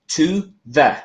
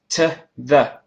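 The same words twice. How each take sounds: First: Both words are said fully and separately. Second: Both words are shortened and run together. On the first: The speaker calls it wrong. "И теперь это не to the" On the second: The speaker calls it right. "мы можем их сокращать"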